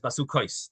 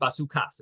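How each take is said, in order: First: The word ends with an 'ais' sound. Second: The word ends with an 'as' sound. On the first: It implies several dwellings. "the pronunciation is Basukais" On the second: It implies one single dwelling. "it could be read Basukas"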